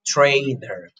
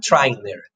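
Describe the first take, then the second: First: "trainer" with the vowel of "day"; corrected TRAINER. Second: "trainer" with the vowel of "try"; wrong TRAINER. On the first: Shown as a demonstration. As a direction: model "trainer" as tray-ner, falling. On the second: Retold or imitated. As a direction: mispronounce "trainer" as try-ner. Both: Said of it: "not trainer".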